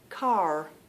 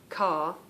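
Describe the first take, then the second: First: The final R sound is pronounced. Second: The final R sound is dropped. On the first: "I'm going to try and mimic now" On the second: "we kind of drop the R"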